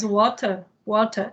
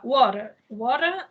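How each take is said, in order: First: Water with a crisp British T; British "water", T fully sounded, no R; British accent. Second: American "water", T tapped like a quick D; American accent. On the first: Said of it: "é mais britânico". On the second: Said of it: "é no sotaque americano". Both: Shown as a demonstration.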